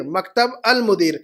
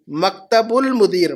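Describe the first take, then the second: First: "مکتب المدیر" split as "maktab, al-mudeer"; separated words. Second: "مکتب المدیر" drawn out as "maktabul-mudeer"; linked pronunciation. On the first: Teacher splits it to show the article, separated words. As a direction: end "مکتب" on b, then say a clear "al" in "المدیر". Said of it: "المدیر کے ساتھ الف لام ہے". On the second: Teacher shows students the joined phrase, linked pronunciation. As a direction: slowly join "مکتب" to "المدیر" with a u. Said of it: "مکتب کے بعد ساتھ میں الف لام نہیں ہے". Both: Shown as a demonstration.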